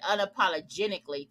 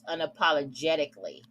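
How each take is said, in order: First: An extra n sound is inserted inside the word. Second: The word is said without any extra n sound. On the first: The speaker calls it wrong. "I put an N in that" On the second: The speaker calls it right. "I did pronunciate it wrong, but it's unapologetically"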